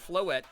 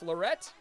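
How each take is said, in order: First: No R sound is in the middle. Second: An R sound is added in the middle.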